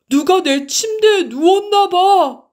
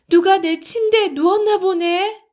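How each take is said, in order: First: It is said in a big, loud voice. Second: It is said in a medium voice.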